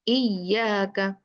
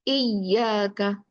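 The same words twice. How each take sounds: Both takes have the same delivery.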